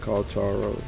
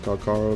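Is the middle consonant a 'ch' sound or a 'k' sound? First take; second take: ch; k. First: The middle consonant is a 'ch' sound. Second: The middle consonant is a hard 'k' sound. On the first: The speaker calls it wrong. "not Kalcharo" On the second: The speaker calls it right. "It's pronounced Kalkaro"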